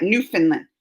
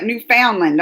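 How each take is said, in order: First: Newfoundland said NEW-fin-land, run together; local Newfoundland. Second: Newfoundland said as written, new-FOUND-land; spelled-out Newfoundland. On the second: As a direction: read Newfoundland the way it looks on the map, FOUND stressed. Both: Shown as a demonstration. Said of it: "no, you don't say it like that".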